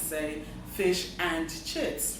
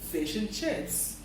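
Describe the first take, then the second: First: The word 'and' is said in its full form. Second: The word 'and' is reduced to a weak 'n'. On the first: The speaker calls it wrong. "You don't, for instance, say" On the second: The speaker calls it right. "Rather, you say"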